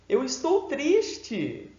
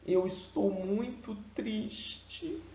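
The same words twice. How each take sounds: First: Mismatched bright delivery. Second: Soft, slow, sorrowful; sad voice. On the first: Teacher showing a voice that contradicts sad words. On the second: Teacher showing a sad voice matching sad words. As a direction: let the sadness weigh it down. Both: Shown as a demonstration. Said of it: "A voz precisa condizer com as palavras".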